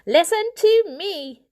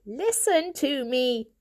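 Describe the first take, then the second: First: Loud commanding call; demanding. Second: Slow, pleading request. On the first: Elder Poor demands to be heard, loud. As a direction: raise the voice to take control. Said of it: "demanded the elder Poor". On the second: Elder Poor begs the family, slow pleading. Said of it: "pleaded the elder Poor". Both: A narrator's reading.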